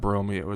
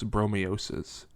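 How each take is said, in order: First: The name ends on a vowel sound. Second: The name ends with an extra s syllable. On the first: The speaker calls it wrong. "it's not Bromeo" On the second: The speaker calls it right. "it's Bromeosis"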